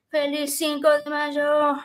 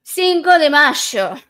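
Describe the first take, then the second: First: Spanish with a heavy American accent; Americanized Spanish. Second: Slow, loud Argentine Spanish accent. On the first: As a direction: say it like an American tourist. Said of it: "that was my very Americanized accent". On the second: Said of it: "I'm gonna say it in an Argentinian accent". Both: Shown as a demonstration.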